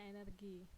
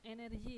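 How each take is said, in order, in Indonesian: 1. G-nya dibunyikan seperti g keras. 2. G-nya dibunyikan seperti j dalam bahasa Inggris. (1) "Kalau bahasa Indonesia kita bacanya energi" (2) "G-nya saya baca J"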